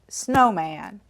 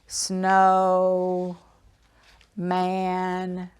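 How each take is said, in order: First: The two parts are said quickly, blended together. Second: The two parts are said slowly and apart.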